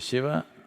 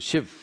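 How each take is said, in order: First: The final vowel is pronounced fully. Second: The final vowel is cut off. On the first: "If you say Shiva" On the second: "they'll say Shiv. ... the last syllable, they'll cut it off"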